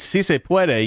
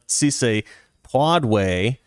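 First: The last word is said as 'pweh-deh'. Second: The last word is said as 'pod-way'. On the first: The speaker calls it right. "It's si se puede" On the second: The speaker calls it wrong. "not si se podway"

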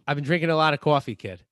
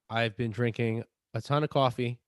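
First: It is said in a New York accent. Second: It is said in his normal accent.

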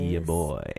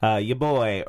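First: It is said in a low, sultry voice. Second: It is said in an ordinary speaking voice.

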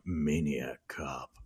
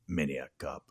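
First: The words are stretched out and drawn long. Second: The words are short, clipped and terse.

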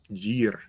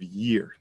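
First: The word starts with a J-like sound. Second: The word starts with a plain y sound. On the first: The speaker calls it wrong. "They're almost making it like a J sound" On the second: The speaker calls it right. "instead of year"

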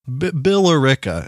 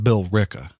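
First: Every written syllable is sounded, ending in t. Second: It ends in an open vowel with no t. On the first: It is read the way it is spelled. The speaker calls it wrong. "Bill Rickett is what it looks like. That's not how it's pronounced" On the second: It is said the way locals say it. The speaker calls it right. "It's pronounced Bill Ricka"

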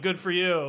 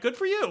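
First: It sounds sarcastic and mocking. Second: It sounds sincere and genuinely pleased.

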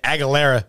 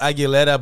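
First: The name is said with English pronunciation. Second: The name is said with Spanish pronunciation. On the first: This is how other people usually say it. "but I know they say Aguilera" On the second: This is how the name really sounds. "it's Aguilera, ... but it is in Spanish"

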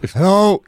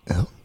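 First: It is said loudly. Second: It is said quietly.

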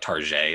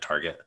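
First: The name is said in a fancy, French-sounding way. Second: The name is said in a plain, ordinary way.

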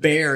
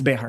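First: It is said as one syllable with no h. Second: It is said as two syllables with an h. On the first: This is the English-speakers' version of the name. The speaker calls it wrong. "Bear is the Anglo version of it" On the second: This is the original Spanish form of the name. The speaker calls it right. "It's actually Behar"

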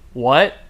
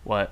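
First: The word rises like a surprised question. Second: The word is said flat, without a question rise. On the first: The character is reacting with surprise. "he's like" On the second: The character sounds oddly unmoved. "written without any punctuation, so it sounds like he just goes"

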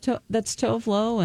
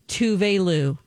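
First: The name sounds like 'Tovlo'. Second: The name sounds like 'Tuve Lou'. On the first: The speaker calls it wrong. "I felt so embarrassed that on the air I have said" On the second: The speaker calls it right. "you pronounce Tovlo Tuve Lou"

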